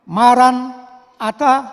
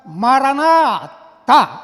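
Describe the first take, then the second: First: The word is split into two parts with a break. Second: The word is said as one unbroken unit. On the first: The Lord will surely come. "diucapkan mara, maran, ata berarti datanglah" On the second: Our Lord, come. "Atau diucapkan maranatha"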